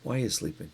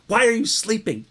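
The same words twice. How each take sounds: First: The question is asked in a gentle tone. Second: The question is asked in an angry tone. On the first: The speaker understands that this is hard for them. "realizes this is hard for them and just says" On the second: The speaker is scolding them for sleeping. "Some would say that Jesus is angry"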